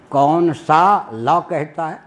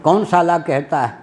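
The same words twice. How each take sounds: First: Very slow, कौन सा rising, then लॉ set apart; सा लॉ split apart. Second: साला run together as a swear word, falling tune; कौन साला in one quick phrase. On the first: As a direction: stretch सा, pause, then a separate लॉ. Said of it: "कौन सा कानून कहता है". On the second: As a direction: keep साला whole, no break inside. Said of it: "जज को साला कह दिया". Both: Retold or imitated.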